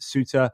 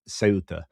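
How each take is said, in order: First: An English-style pronunciation, sounding like 'Suter'. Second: A Spanish pronunciation starting with an 's' sound. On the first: "the British would call it Suter" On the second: "Andalusia... they would pronounce it um, Ceuta"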